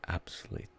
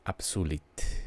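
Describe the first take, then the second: First: "absolute" said the English way, stress on the first syllable, almost voiceless; "absolute" nearly whispered in the common English way; wrong way. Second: "absolute" said like Italian, stress on su; "absolute" with the U said as a double O, stress on su; right way. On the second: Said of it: "it should sound like Italian". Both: Shown as a demonstration.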